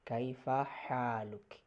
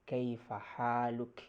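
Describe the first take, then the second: First: The last word ends on a bare consonant. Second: The last word ends on a bare consonant.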